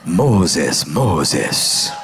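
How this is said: It is said in a Hispanic accent.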